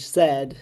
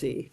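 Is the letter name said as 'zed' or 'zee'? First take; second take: zed; zee. First: It is said the British way, as zed. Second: It is said the American way, as zee.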